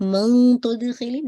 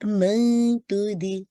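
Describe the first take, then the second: First: "मन" said heavy and loud, slow; "मन" made thick and heavy, the wrong way; "मन" said wrongly heavy; wrong heavy man. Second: "मन" kept light, slow; "मन तुद-" said light, tongue tip forward; "मन" light, with no heaviness; light man. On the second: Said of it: "heaviness create नहीं होगी". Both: Shown as a demonstration.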